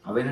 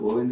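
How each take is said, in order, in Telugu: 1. ఈ పదం 'a' అచ్చుతో మొదలవుతుంది. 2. ఈ పదం 'o' అచ్చుతో మొదలవుతుంది. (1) "ప్రొనౌన్సియేషన్ వచ్చేసి ఏ అవెన్లో పెట్టండి" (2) "నాకు ఓవెన్ తెలుసు"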